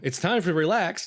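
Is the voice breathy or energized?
energized. It is said in an energized, lively voice.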